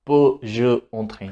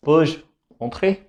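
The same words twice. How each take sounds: First: "Peux-je entrer?" run together as one smooth flowing phrase; linked pronunciation. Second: "peux-je" then a clear pause before "entrer", the two parts said as separate chunks; wrong, split apart. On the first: Teacher modelling the correct joined French for students, smooth and linked. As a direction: blend "Peux-je" straight into "entrer" with no break. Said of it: "वो अलग-अलग pronounce नहीं होता".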